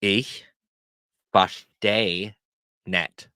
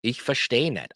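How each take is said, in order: First: Each word separate, pauses between; word-by-word teaching demo. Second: Words run together in one phrase; whole-phrase demo. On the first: Teacher shows learners how to say they don't understand, word by word. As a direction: break it up slowly for learners. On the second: Teacher models telling someone they don't understand, in one flow. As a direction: say it straight through without pauses. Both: Shown as a demonstration. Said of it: "So you wanna say".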